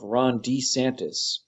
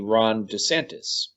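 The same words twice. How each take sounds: First: The second syllable has a long E vowel. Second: The second syllable has a short E vowel. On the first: This is the new way he says his own name. "He is using a long E vowel sound" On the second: This is the usual way the name is said. "as opposed to a short E vowel sound, which is how everybody else says it"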